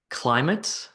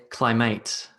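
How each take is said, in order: First: CLY-mit, short weak ending; "climate" with a reduced second syllable; first-syllable stress. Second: Cly-MATE, full "mate" at the end; "climate" mis-stressed on its last syllable; second-syllable stress. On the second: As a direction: shift the weight of "climate" onto MATE. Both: Shown as a demonstration. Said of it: "first syllable or the second syllable".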